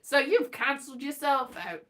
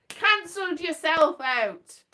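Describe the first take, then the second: First: Said in the usual way. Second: Cancelled yourself out punched a bit louder; a louder, final restatement; emphatic repeat. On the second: Shown as a demonstration. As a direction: land "yourself" firmly, slower.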